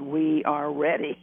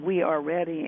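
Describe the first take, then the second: First: WE ARE READY, each word slow and weighted; calm insistence. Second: Said in the usual way. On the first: Retold or imitated. Guides insist after Bob hesitates.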